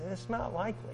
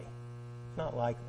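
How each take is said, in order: First: Said in the usual way. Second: Much softer, dropping the voice; soft echo. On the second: Shown as a demonstration. Preacher softly echoing his own warning to the congregation. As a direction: let it fall away as an echo.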